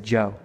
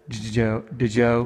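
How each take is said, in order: First: The syllable starts with a plain J sound. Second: The syllable starts with a D-like J sound. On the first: The speaker calls it right. "I just say Joe" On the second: The speaker calls it wrong. "it's really like a D-G sound"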